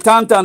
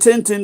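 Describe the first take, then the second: First: The name is said with French nasal vowels. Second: The name is said with plain English vowels. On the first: The speaker calls it right. "the French say Tantan" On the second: The speaker calls it wrong. "They don't say Tintin"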